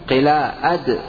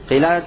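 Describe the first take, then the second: First: A glottal stop breaks the middle of the word. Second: The word runs smoothly with no glottal stop. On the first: A hamza has been added to the word. "قلا أد أتيت بهمزة" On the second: One alif has been left out of the word. "قلاد تركت ألفا"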